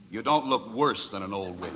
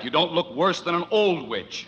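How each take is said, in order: First: The word 'worse' is stressed. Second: The word 'worse' is not stressed.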